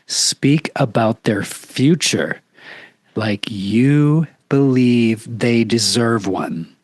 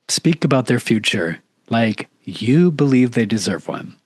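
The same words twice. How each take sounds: First: It is said slowly and deliberately. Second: It is said at a normal pace.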